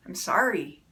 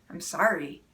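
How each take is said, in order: First: A curt, falling sorry with no warmth; grudging sorry. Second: Imitating a husband's low, curt sorry; a mild mock of an empty apology; grudging sorry. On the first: Shown as a demonstration. Spouse gives an apology after a fight in a grudging tone. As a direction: toss off the sorry as if it means nothing. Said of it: "with the tone of voice of". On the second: Wife imitates her husband's hollow apology, low and grudging. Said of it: "When my husband says it to me like that way".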